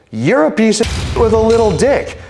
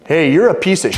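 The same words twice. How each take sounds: First: High-pitched mock screech of an insult; imitating shouting woman. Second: Raised-pitch, blunt acted insult; retold confrontation. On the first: Woman insulting man at airport, mock high-pitched shouting. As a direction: hurl it back in her put-on high voice. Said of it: "she's just shouting at me". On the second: Man confronting rude woman at security, mildly acted insult. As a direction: act out calling someone out, pitched up.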